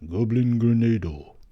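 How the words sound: It is said in a dramatic anime-style voice.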